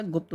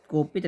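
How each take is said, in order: First: गुप्त as one tight "gupt"; correct word form. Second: गोपित as go-pit; wrong word form. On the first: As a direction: say गुप्त with u and a pt cluster. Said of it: "होता है". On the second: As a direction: say गोपित with o and i vowels. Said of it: "नहीं होता". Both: Shown as a demonstration.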